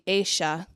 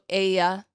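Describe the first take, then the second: First: The double L sounds like 'sh'. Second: The double L sounds like 'y'.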